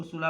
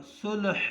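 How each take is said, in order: First: सुलह said the way people usually read it; common reading. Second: सुलह pronounced carefully in its correct form; correct pronunciation. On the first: Teacher to students, showing how सुलह is commonly read. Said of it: "हम इसको सुलह पढ़ते हैं". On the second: Teacher to students, stating the correct सुलह clearly. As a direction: give सुलह its proper pronunciation. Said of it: "सुलह इसका सही तलफ़ुज़ है". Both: Shown as a demonstration.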